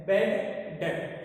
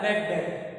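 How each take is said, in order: First: "बैड", pause, then "डेट"; word by word. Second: Said in the usual way. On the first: Shown as a demonstration. Repeats new term word by word. ("बैड डेट" रुक-रुक कर, शब्द अलग-अलग)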